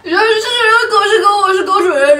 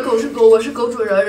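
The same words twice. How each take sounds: First: Fast, high words through laughter; laughing while talking. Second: Said in the usual way. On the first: Real, not acted. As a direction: rush it out, cracking up.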